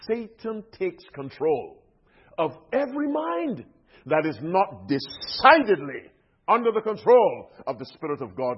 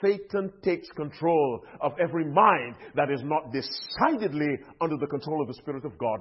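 First: It is said slowly. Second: It is said at normal speed.

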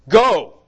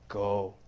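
First: It is said with sharp, hurtful emphasis. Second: It is said softly, without sharp emphasis.

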